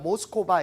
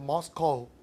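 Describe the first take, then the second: First: It is said with four syllables, ending in 'ba'. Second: It is said with two syllables and no 'ba'. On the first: The speaker calls it wrong. "모스코바 이런 발음이 없고요" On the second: The speaker calls it right. "이제 머스코"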